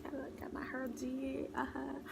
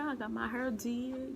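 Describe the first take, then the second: First: Whispered repeat, higher. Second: Said in the usual way. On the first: Shown as a demonstration. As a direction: breathe it out as a whisper.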